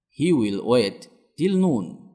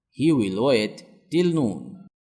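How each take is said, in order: Both takes have the same delivery.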